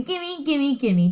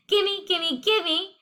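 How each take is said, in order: First: Lightly voiced parrot copy; a hint of a parrot squawk; parrot mimicking. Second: A hint of a higher, greedy gimme; princess's greedy demand. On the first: Parrot copying the princess, lightly squawked. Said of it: "He's saying". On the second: Teacher recalls princess demanding cake, lightly higher and greedy. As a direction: lightly replay the princess begging. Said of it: "just like how Princess Penelope said".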